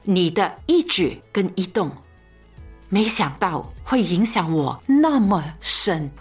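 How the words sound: It is spoken in a relaxed, chatty, confiding tone. It sounds like sharing personal feelings in conversation. The speaker calls it right. "通常独白的时候你会这么讲"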